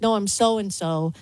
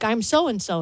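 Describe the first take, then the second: First: Slowed insistent repeat of "No, I'm so-and-so". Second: Said in the usual way. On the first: Retold or imitated. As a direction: say "No, I'm so-and-so" slowly, pressing the name. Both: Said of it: "And she's like".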